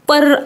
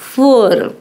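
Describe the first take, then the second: First: The first p sound is plain, without breath. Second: The first p sound has a slight breathy puff. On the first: The speaker calls it wrong. "पर असं होत नाही" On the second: The speaker calls it right. "प मध्ये फ चा किंचितसा उच्चार होतो, फोर असं होईल"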